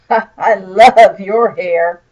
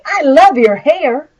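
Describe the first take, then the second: First: It is said sarcastically, with a mocking laugh. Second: It is said sincerely, with admiration.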